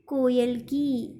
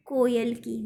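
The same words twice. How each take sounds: First: कोयल की drawn out very slowly; slow dictation. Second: Said in the usual way. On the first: Shown as a demonstration. Teacher dictating the answer to her pupils, very slow. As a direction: dictate कोयल की word by word so they can write it. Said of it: "इस तरह से कोयल की लिखना है आपको". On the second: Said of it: "इसका उत्तर है".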